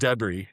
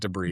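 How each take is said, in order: First: The word is said the British way. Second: The word is said a non-British way. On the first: This is how the British narrator says it. The speaker calls it wrong. "he says debris" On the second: This is how the speaker says it. The speaker calls it right. "not debris"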